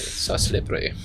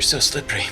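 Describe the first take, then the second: First: It is said in a German accent. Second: It is said in a plain, ordinary accent.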